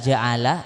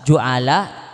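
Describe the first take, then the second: First: The first vowel is a. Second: The first vowel is u. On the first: "dibaca fathah" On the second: "Dibaca roma"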